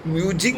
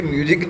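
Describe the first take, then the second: First: "म्यूजिंग" ending in a ringing ng; clarifying pronunciation. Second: "म्यूजिक" ending in a hard k; mistaken word. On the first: Teacher clarifying it is not music, "म्यूजिंग" ending in -ing. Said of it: "म्यूजिंग बोल रहा हूँ". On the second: Teacher warning students off the confusion, "म्यूजिक" ending in k. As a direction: say "म्यूजिक" with a final k, no ng. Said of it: "अब इसे म्यूजिक नहीं समझ लेना". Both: Shown as a demonstration.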